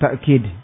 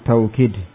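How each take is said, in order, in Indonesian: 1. Suku kata pertama diakhiri dengan hentian glotal. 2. Suku kata pertama memiliki diftong au. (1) "kadang dikatakan dengan ta'kid, bil hamzah, dengan hamzah" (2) "bilwawu, dengan wawu, taukid"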